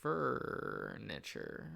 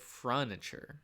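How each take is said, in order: First: The vowel sound comes before the r. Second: The vowel sound comes after the r. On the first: The speaker calls it right. "It's furniture" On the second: The speaker calls it wrong. "I always pronounce it furniture, but that's not where the U is"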